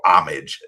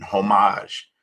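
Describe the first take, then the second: First: "homage" said AH-mij, stress up front; American pronunciation. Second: "homage" said French-style, ho-MAHZH; non-American pronunciation. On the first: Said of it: "as, uh, Americans would say". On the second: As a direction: say "homage" as ho-MAHZH, stress at the end. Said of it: "Americans would say". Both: Shown as a demonstration.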